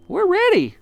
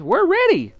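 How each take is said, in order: First: Very high, loud little chorus; squeaky eager answer; monkeys answering. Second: Very high, loud bird chorus; birds answering. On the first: The monkeys reply to Mugglewump, very high and eager. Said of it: "said the monkeys". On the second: The birds reply to Mugglewump, very high and eager. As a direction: chirp it back eagerly. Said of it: "said the birds". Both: A narrator's reading.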